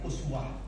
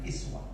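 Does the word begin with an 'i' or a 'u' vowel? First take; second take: u; i. First: The word begins with a rounded 'u' vowel. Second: The word begins with a front 'i' vowel. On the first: "alifnya didamahkan uswah" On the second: "padahal sebenarnya dikasrahkan iswah"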